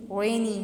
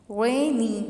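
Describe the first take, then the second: First: rainy said whole, shorter, first syllable leading; stress on first syllable. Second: rainy drawn out, loud RAY then lighter nee; stress on first syllable. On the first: Teacher repeating the example whole, first syllable of rainy stressed. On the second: Teacher demonstrating stress to students, exaggerated first syllable of rainy. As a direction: stretch and punch रे in rainy. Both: Shown as a demonstration. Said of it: "stress first one पे आया".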